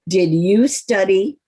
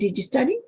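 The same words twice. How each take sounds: First: The word 'you' is strongly stressed. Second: The word 'you' carries no special stress. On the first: "Here's the second way of saying it" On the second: "That's one way of saying it"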